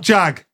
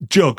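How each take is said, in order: First: The vowel is the open 'a' of cat. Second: The vowel is the short 'u' of cup. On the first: The speaker calls it wrong. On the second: The speaker calls it right.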